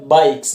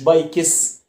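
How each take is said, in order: First: The final s follows k with no extra vowel. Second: An extra schwa vowel comes before the final s. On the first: The speaker calls it right. "عايز اقول دراجات بايكس" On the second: The speaker calls it wrong. "ما تحطش صوت الشوا في النص"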